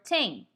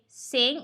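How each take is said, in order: First: The word begins with a t sound. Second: The word begins with an s sound. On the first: "or a T" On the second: "replace the unvoiced T H with an S"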